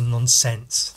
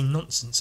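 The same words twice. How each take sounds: First: The ending is carefully over-enunciated. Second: The ending is relaxed and not over-enunciated. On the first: The speaker calls it wrong. "I don't like to properly over-enunciate the ents" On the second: The speaker calls it right. "I like to say nonsense"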